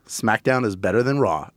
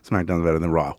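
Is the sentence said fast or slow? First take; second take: slow; fast. First: The sentence is said slowly and deliberately. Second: The sentence is rushed out quickly. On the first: The claim is sincerely committed to. The speaker calls it right. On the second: The claim is brushed off without commitment. The speaker calls it wrong.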